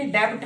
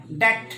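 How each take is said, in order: First: Wrong 'debt', b pronounced; debt with b sounded. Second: 'debt' said as 'det'; debt with silent b. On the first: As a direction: put a b into debt. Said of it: "नहीं". ('डेब्ट', 'ब' बोलकर गलत) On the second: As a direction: drop the b in debt. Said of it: "silent बी". ('डेट', 'ब' silent) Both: Shown as a demonstration.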